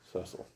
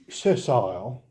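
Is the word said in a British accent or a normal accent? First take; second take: normal; British. First: It is said in the speaker's normal accent. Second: It is said in a British accent.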